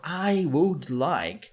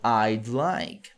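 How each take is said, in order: First: All three words are said in full. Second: The first two words are contracted into one. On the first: "ficaria muito longo" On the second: "nós encurtamos para I'd like"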